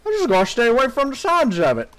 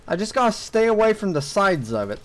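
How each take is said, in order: First: Higher, rushed, slurred mock voice; hammed-up hurried self-mockery; mock repeat. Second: Said in the usual way. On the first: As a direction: parrot yourself with mushy sh-sounds. Repeats own line in mock slurred voice.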